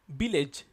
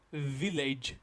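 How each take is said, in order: First: It starts with both lips touching, B-like. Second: It starts with lower lip against upper teeth. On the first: The speaker calls it wrong. "we are touching our lip to pronounce this word village" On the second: The speaker calls it right. "It's starting with V, V. So it will be V"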